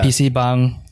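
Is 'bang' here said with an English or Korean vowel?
Korean. It is said with a Korean vowel. The speaker calls it right.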